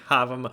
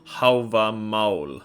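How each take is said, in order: First: The name is said in an anglicized way. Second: The name is said with an Old Norse pronunciation. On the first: The speaker calls it wrong. "Stop saying Havamal" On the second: The speaker calls it right. "if you really want to say it right in Old Norse"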